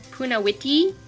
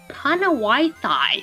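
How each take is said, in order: First: The final syllable sounds like 'tee'. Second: The final syllable sounds like 'tie'. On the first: The speaker calls it right. "it's Punawiti" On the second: The speaker calls it wrong. "if you don't know how to pronounce it, it looks like it says Panawaitai"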